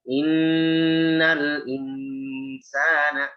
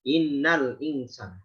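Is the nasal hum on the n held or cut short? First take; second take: held; short. First: The n carries a nasal hum held two beats. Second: The n is said without a held nasal hum. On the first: The speaker calls it right. "Seperti itu" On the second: The speaker calls it wrong. "enggak ada gunnah"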